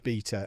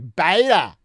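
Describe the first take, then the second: First: It is said in a British way. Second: It is said in an American way.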